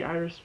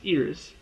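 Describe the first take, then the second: First: Iris said like the flower, EYE-ris; mistaken pronunciation. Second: Iris said as EE-ris; corrected pronunciation. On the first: Reviewer admits the name he wants to say, mistaken EYE-ris for Iris. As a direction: say Iris with a long "eye" at the start. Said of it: "I wanna say Iris". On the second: Reviewer corrects himself on the character's name, EE-ris for Iris. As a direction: say Iris with an "ee" at the start. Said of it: "but it's Iris". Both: Shown as a demonstration.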